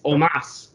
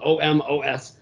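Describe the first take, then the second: First: The stress is on the second syllable. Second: The stress is on the first syllable. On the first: The speaker calls it right. "It's Omos" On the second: The speaker calls it wrong. "we've been stressing the O, because that's how it's spelled"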